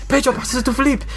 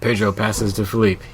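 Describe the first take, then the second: First: It is said excitedly, with lots of energy. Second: It is said flatly, with little energy. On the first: An enthusiastic announcer is calling the play. "it goes over to the, to the Spanish commentator" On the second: A calm, unexcited announcer is calling the play. "not even that excited"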